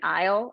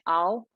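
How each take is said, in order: First: The word is said with an 'eye' vowel. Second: The word is said with an 'aw' vowel. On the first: The speaker calls it right. "now I'd sing it aisle" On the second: The speaker calls it wrong. "maybe a couple years ago I might have said"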